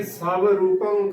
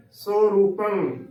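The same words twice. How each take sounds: First: ਸਵ ਰੂਪੰ said sa-va-roo-pang; "sava-roopang" for ਸਵ ਰੂਪੰ; mispronunciation demo. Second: ਸੋ ਰੂਪੰ said so-roo-pang, slowly; correct pronunciation. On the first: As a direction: sound the v in ਸਵ ਰੂਪੰ. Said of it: "ਗਲਤ ਉਚਾਰਨ ਹੋਵੇਗਾ". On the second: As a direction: draw out ਸੋ ਰੂਪੰ as "so-roopang". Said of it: "ਉਚਾਰਨ ਕਰਨਾ ਹੈ". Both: Shown as a demonstration.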